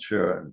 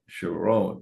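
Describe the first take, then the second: First: The stress is on the first syllable. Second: The stress is on the second syllable. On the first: The speaker calls it wrong. "She did not like to be called Sharon" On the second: The speaker calls it right. "She wanted that Sharon"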